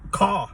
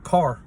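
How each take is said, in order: First: It is said with a Boston accent. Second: It is said with a general American accent.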